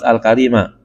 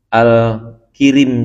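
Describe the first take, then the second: First: The vowel after the k is 'a'. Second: The vowel after the k is 'i'. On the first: This is the commonly held reading. "dibaca dengan fathah kaf" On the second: This reading is also allowed but rarely found. "Kan kafnya dikasroin"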